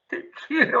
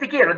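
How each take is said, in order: First: It sounds warm and loving. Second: It sounds annoyed and dismissive.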